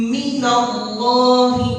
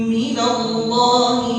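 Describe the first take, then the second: Both takes have the same delivery.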